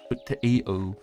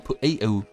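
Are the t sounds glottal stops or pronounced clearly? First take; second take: pronounced; glottal stops. First: The t sounds are pronounced clearly. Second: The t sounds are swallowed as glottal stops.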